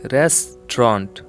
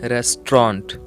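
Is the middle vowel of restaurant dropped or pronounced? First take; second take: dropped; dropped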